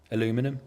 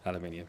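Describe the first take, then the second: First: It is said in an American way, four syllables. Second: It is said in a British way, five syllables. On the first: This is a form the speaker does not normally use. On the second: This is the speaker's own usual form.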